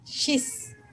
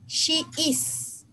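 First: The words are merged into one short syllable. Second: Both words are said fully and separately. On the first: "forma corta" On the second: "forma larga"

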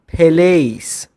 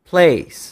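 First: A vowel is inserted between p and l. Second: The p and l are said together without a vowel. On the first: The speaker calls it wrong. "خیلی ها ممکن اینو پلیس تلفظ بکنن" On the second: The speaker calls it right. "تلفظ درست"

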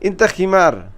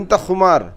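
First: The second word has an 'i' vowel. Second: The second word has a 'u' vowel. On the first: "আবার এভাবে বলে খিমার" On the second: "খুমার এটাও বলে থাকে"

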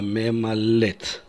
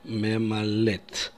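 First: The two e vowels merge into one. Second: The same.

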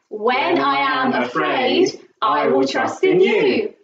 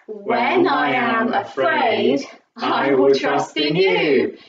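First: It is said faster still. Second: It is said a little faster.

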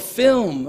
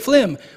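First: The word sounds like 'film'. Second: The word sounds like 'phlegm'. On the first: "oh, a film" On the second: "in Trinidad, phlegm is an acceptable pronunciation as well"

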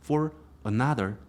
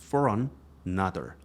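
First: Each word is said clearly and separately. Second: The r of for runs into another. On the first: "하나씩 또박또박 말씀하시는 게 훨씬 더 알아듣기 좋아요" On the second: "for r 하고 뒤에 another에서 an 여기까지 for another. 이렇게 그 발음을 하기 때문에 여러분이 듣기는 조금 힘드실 거예요"

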